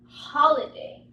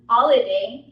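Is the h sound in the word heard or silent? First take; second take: heard; silent. First: The h sound is clearly heard. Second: The h sound is silent. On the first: The speaker calls it right. "he says holiday. ... This is what I mean by aspirated" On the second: The speaker calls it wrong. "he doesn't say holiday"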